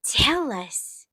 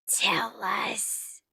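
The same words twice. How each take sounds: First: Said in the usual way. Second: Teasing whisper. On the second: Pretend. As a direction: breathe it out conspiratorially. Teasing whisper after normal take.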